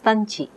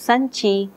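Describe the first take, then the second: First: The word begins with a stopped t sound. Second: The word begins with a hissing s sound. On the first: This is a young child's simplified form. The speaker calls it wrong. "becomes tanchi" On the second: This is the adult form of the word. The speaker calls it right. "a Telugu word like sanchi, which means bag"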